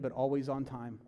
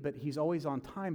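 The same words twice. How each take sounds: First: "always" leaned on, falling; stress on always. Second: "always" lifted with a rise; repeat, rising on "always"; stress on always. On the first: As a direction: press the word "always". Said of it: "a friend say". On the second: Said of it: "Like, he's never late". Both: Shown as a demonstration.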